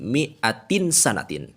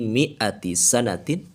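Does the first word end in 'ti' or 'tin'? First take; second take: tin; ti. First: The first word ends in 'tin', with an 'n'. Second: The first word ends in 'ti', with no 'n'.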